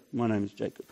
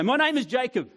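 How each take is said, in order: First: Low, quiet, defeated; ashamed admission. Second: Higher, bold self-announcement; proud declaration. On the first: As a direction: mumble your name in shame. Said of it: "Or do he go". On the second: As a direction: say your name with head held high. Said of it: "Or does he go". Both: Pretend.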